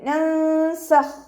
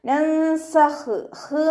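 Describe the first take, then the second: First: The final kh is held short without release. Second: The final kh ends with an extra breathy release. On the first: The speaker calls it right. "മഖ്റജിലേക്ക് ചേർത്തി കൊടുക്കുക" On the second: The speaker calls it wrong. "എന്നായി പോവരുത്"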